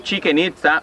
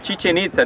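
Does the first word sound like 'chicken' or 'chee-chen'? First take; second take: chicken; chee-chen. First: The first word sounds like 'chicken'. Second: The first word sounds like 'chee-chen'. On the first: The speaker calls it wrong. "No chicken itza ... like some people say" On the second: The speaker calls it right. "this is the right way to say Chichen Itza"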